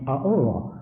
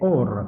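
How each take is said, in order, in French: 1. Le mot commence par un son "a" ajouté. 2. Le mot commence directement par le son "o". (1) "on ne prononce pas le A" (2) "c'est or, tout court"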